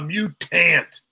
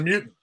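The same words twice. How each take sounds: First: The word is said with a Southern-sounding pronunciation. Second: The word is said in a plain, standard way. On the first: The speaker calls it right. "it sounds more southern" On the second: The speaker calls it wrong. "Nah, that isn't selling"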